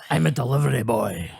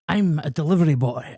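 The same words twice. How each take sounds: First: It is said in a gritty voice. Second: It is said in a plain voice.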